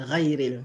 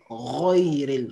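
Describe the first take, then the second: First: The r is plain with a light a vowel. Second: The r is emphatic with a dark o-like vowel. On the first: The speaker calls it wrong. "au lieu de rayril" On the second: The speaker calls it right. "c'est royril"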